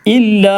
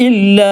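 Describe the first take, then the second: No difference in how they are said.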